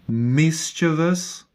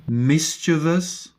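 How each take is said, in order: The two takes are said the same way.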